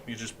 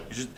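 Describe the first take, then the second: No difference in how they are said.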